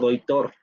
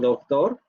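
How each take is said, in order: First: An i vowel sound replaces the consonant before t. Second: A softened, weak consonant is heard before the t. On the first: The speech is very relaxed and dialectal. "o doitor" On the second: The speech is relaxed. "cuando ustedes lo pronuncian de manera relajada, decimos doctor"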